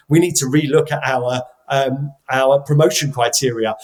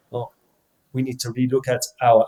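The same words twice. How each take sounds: First: Said in the usual way. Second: Light imitation of a French accent; a hint of a French manager's accent. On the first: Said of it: "I'm sorry, I did, did the French accent". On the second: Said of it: "did the French accent".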